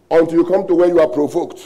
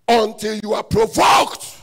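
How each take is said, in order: First: Said in the usual way. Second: Higher, slower shouted repeat; preacher's slow shouted emphasis; preaching shout. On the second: Shown as a demonstration. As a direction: hammer the repeat home.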